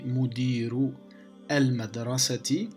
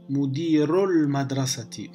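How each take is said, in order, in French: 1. Chaque mot est prononcé séparément, en gardant la voyelle de l'article. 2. Les mots se suivent, en supprimant la voyelle de l'article. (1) "une lecture interrompue, c'est-à-dire chaque mot à part" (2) "lire d'une façon continue"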